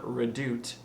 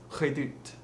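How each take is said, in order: First: Said in the usual way. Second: "redoute" with a breathy, slightly rolled R; French-accented "redoute", R almost like H. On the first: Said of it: "Or it's not redoute". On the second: Shown as a demonstration. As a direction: say "redoute" slowly with an airy French R. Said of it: "roll it a little bit and keep it breathy".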